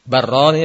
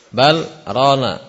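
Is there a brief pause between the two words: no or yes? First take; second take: no; yes. First: The words run together with no pause. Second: A brief pause separates the two words. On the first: It means two lands. The speaker calls it wrong. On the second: It means their hearts are covered. The speaker calls it right.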